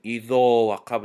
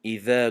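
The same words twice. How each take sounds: First: اذا with a thick, rounded o vowel; heavy idho. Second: اذا with a thin, light dhal and open a; thin idha. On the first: Teacher shows the wrong heavy اذا وقب to students. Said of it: "اذا وقب نگفتیم". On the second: Teacher shows the correct light اذا to students. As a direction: say اذا lightly, not rounded. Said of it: "اذا گفتیم". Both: Shown as a demonstration.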